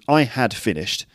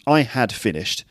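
First: The word had is said fully and clearly. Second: The word had is said fully and clearly.

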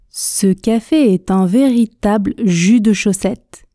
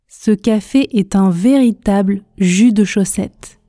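Both takes have the same delivery.

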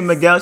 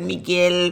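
First: The name is said plainly, without a foreign accent. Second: The name is said with a full foreign accent. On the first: "She didn't even say Miguel" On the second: "She said the whole accent"

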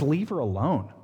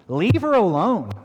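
First: It is read in a plain, flat way. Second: It is read with lively, expressive voice.

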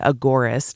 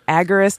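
First: It begins like 'agora', with full vowels. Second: It begins like 'agger', with a short reduced vowel. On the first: The speaker calls it right. "agora, like the agora, the market" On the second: The speaker calls it wrong. "Some people say it agorist, and it sounds like A-G-G-E-R-I-S-T"

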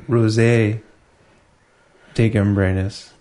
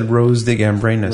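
First: The first word ends with an added 'ay' sound. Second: The first word sounds like the flower 'rose'. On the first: The speaker calls it right. "It was supposed to be rosé de gambrinus" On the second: The speaker calls it wrong. "When we said rose de gambrinus"

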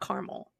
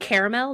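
First: The word is said with two syllables. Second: The word is said with three syllables. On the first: The speaker calls it wrong. "not caramel" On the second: The speaker calls it right. "it's fucking caramel"

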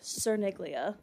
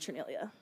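First: The name is said with a hard g sound. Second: The name is said without a g sound. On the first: This is how the name reads from its spelling. The speaker calls it wrong. "Looks like Cerniglia" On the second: This is how the name is actually said. The speaker calls it right. "And pronounced Cernelia"

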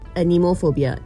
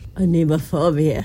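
First: It is said in a plain, ordinary accent. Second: It is said in a put-on French accent.

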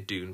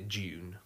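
First: The word begins with a plain d sound. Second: The word begins with a j sound. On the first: This is how Americans say it. "the Americans say Dune" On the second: This is how the speaker personally says it. "but I say June"

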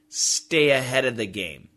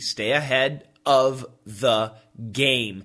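First: It is said fast with the v in 'of' dropped. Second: It is said slowly with the v in 'of' heard.

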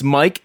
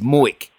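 First: The name is said with a standard vowel. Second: The name is said with a local Delco vowel.

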